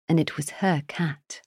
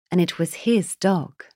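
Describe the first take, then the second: First: "her" stressed, falling. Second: "his" stressed, falling. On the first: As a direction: lean on "her" in "and it was her cat". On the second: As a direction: lean on "his" in "and it was his dog". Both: A narrator's reading. Contrast her cat, his dog.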